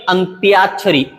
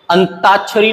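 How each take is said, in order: First: अंत्याक्षरी with a y glide, an-tyaak-shari; correct pronunciation. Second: अंताक्षरी without y, an-taak-shari; wrong pronunciation. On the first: Teacher breaking down the word, अंत्याक्षरी said as an-tyaak-shari. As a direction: say अंत्याक्षरी with tyaa. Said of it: "अंत्य plus आक्षरी". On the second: Teacher showing the mistake, अंताक्षरी said as an-taak-shari. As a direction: say अंताक्षरी with a plain taa. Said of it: "नहीं है". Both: Shown as a demonstration.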